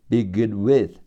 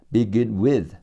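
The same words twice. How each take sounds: No difference in how they are said.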